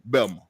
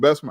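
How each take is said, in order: First: The name is shortened, dropping the s sounds. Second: The name is said in full, with every s sound. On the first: "Most people say Belma" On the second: "I pronounce the name correctly with all the S's"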